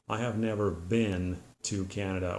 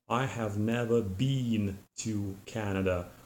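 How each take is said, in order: First: The word 'been' has a short I vowel. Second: The word 'been' has a long E vowel. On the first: The speaker is from the United States. "a person from the United States would say" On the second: The speaker is from Great Britain. "a person from Great Britain would, for example, say"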